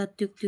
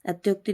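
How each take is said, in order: First: Said in the usual way. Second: अत्योक्ति with 'o' in the middle; mispronounced अत्योक्ति. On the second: Shown as a demonstration. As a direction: say अत्योक्ति as at-YOK-ti. (अत्योक्ति में 'यो' की ध्वनि) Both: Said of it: "अत्युक्ति होता है".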